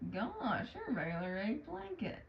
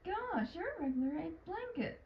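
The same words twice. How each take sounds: First: The line is said in a sarcastic tone. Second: The line is said in a sincere tone. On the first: "that sounds a little more sarcastic" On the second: "that one sounded more, I guess, genuine"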